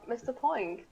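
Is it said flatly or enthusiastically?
flatly. It is said flatly, without enthusiasm.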